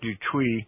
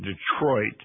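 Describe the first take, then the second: First: The name is pronounced the French way. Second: The name is pronounced the American way.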